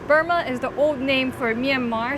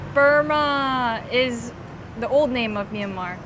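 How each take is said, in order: First: It is said firmly, with conviction. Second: It is said hesitantly, without conviction. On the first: The speaker calls it right. "let me try that again" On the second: The speaker calls it wrong. "I said that with not much conviction"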